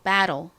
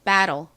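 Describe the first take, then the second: The two takes are said the same way.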